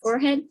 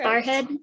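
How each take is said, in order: First: The first vowel sounds like 'for'. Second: The first vowel sounds like 'far'. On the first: "instead of forehead" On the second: "my friend from Virginia would say"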